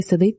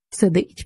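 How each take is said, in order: First: Said in the usual way. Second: Mocking echo. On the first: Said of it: "спробував заперечити Андрій". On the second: A narrator's reading. Soldier throws Andrii's word back at him, mockingly. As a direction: echo СИДИТЬ back as a taunt. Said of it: "передражнив його солдат".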